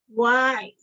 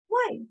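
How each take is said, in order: First: It is asked in a confrontational tone. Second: It is asked with childlike curiosity.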